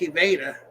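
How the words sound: The R is said like an H.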